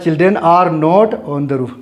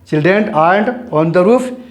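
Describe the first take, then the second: First: The words 'are not' are said as two full words. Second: The words 'are not' are contracted into one syllable.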